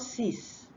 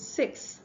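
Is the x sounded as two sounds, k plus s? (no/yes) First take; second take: no; yes. First: The x is not sounded as k plus s. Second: The x is sounded as k plus s. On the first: The speaker calls it wrong. "not six" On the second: The speaker calls it right. "So the X has to be two sounds"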